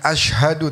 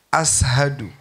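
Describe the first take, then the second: First: The middle consonant is a 'sh' sound. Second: The middle consonant is an 's' sound. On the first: "bukan ashadu" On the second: "nggak bisa ngomong shin"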